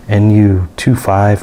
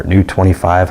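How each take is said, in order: First: "N U two five" read as separate letters and digits; "N U two five" spelled out; spelled-out name. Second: "new twenty-five" said as a word and a whole number; "new twenty-five" run together as a name; read as words. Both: Shown as a demonstration. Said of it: "however you wanna say it".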